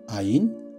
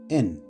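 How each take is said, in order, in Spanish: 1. La palabra tiene dos sílabas, ah-yin. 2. La palabra es una sola sílaba con una eh corta. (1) "algunas veces es pronunciada así" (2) "a veces solamente En"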